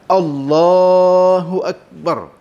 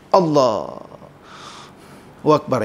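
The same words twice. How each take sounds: First: It is said in one unbroken breath. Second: A breath breaks the phrase in the middle.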